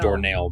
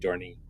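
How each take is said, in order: First: The word ends with a 'nail' sound. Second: The word ends with an 'ee' sound. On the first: The speaker calls it wrong. "I made doornail" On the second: The speaker calls it right. "but it's really doorney"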